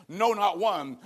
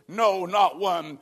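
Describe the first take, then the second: First: Said in the usual way. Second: "no, not one" drawn out slowly, each word pressed down; "no, not one" slowed right down and weighted; slow emphatic repeat. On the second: Acted. Then God repeats it.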